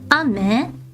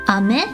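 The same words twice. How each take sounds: First: The pitch goes down across the word. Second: The pitch goes up across the word. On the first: It means rain falling from the sky. "if you go down" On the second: It means sweet candy. "go up"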